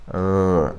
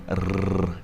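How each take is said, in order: First: "rrr" with tongue curled back, no trill; curled-back, untrilled "rrr"; American r. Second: "rrr" with a tongue trill at the gum ridge; rolled r. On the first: Teacher showing the right curled r. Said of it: "you go like". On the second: Teacher showing the wrong rolled r. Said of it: "Instead of going". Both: Shown as a demonstration.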